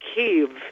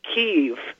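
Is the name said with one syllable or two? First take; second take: two; two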